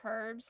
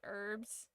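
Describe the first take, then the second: First: The h at the start is pronounced. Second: The h at the start is silent. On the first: The speaker calls it right. "Americans can't say the H right" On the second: The speaker calls it wrong. "not herbs"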